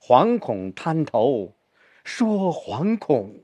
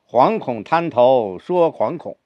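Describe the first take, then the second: First: The second 惶恐 is stressed more strongly. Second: Both 惶恐 are stressed equally.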